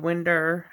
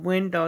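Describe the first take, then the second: First: Said in a local Southern accent. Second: Said in a Jersey-style accent. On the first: This is how people down here say it. "instead of winder" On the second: This is how the speaker herself says it. "I say window"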